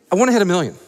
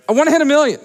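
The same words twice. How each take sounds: First: Said in the usual way. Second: "hit" punched, higher and louder; stress on hit. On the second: Shown as a demonstration. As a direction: say it again bigger, leaning on "hit". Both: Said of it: "repeats it bigger".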